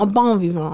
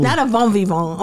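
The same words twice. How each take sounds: First: "bon vivant" with a clear opening B; corrected "bon vivant". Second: "bon vivant" begun with a V, as "von"; mispronounced "bon vivant". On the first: Showing co-host the word, B in "bon vivant". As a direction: start "bon vivant" on a firm B. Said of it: "Not a bon vivant". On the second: Correcting co-host's slip, "bon" said as "von". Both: Shown as a demonstration.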